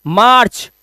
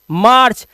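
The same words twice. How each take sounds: The two takes are said the same way.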